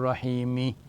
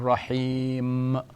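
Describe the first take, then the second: First: The word ends with an added final i vowel. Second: The word ends on m with no vowel. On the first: The speaker calls it wrong. "we do not say Bismillahir Rahmanir Rahimi" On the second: The speaker calls it right. "the final vowel is ignored"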